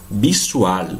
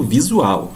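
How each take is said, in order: First: "Visual" as "bissual", hissed S and clear L; Spanish S sound. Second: "visual" with a buzzing Z and final W sound; Portuguese Z sound. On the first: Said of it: "sempre pronunciada como S". ("Visual" com som de S, à espanhola) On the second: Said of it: "som de Z". ("visual" com som de Z, em português) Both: Shown as a demonstration.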